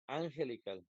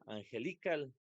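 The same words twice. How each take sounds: First: The stress is on the first syllable. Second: The stress is on the third syllable. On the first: "no puede ser la primera porque diría angelical" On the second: "si fuera li, diría angelical"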